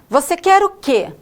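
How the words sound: It is said in a rude, disapproving tone.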